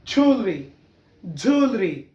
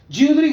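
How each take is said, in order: First: ज्वेलरी as "jool-ree"; ज्वेलरी said "jol-ri", falling; corrected ज्वेलरी. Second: ज्वेलरी as "jiu-lri"; wrong "jyoo-lree" for ज्वेलरी; mispronounced ज्वेलरी. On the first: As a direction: model ज्वेलरी with one rounded vowel. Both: Shown as a demonstration. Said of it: "ज्वेलरी गलत पढ़ते हैं".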